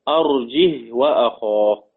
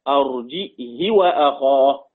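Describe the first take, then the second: First: It has no glottal stop and no vowel after h. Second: It has a glottal stop and a short i after h. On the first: "سكون الهاء بدون همز" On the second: "همزة وكسر وقصر"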